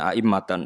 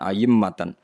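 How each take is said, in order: First: The second vowel starts with a glottal stop. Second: The second vowel starts with a y sound. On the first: "bitahqiqil hamzaten" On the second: "wa ibdali saniyati ya"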